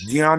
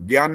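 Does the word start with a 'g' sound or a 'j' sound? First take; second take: j sound; g sound. First: The word begins with a j sound. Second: The word begins with a hard g sound. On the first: The speaker calls it right. "जियान होता है ये" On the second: The speaker calls it wrong. "ज्ञान नहीं बोलना चाहिए"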